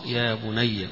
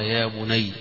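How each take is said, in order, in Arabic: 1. الياء الأخيرة تُنطق بحركة. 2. الياء الأخيرة ساكنة، بلا حركة.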